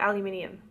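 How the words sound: It is said the Australian way. "I think we say aluminium"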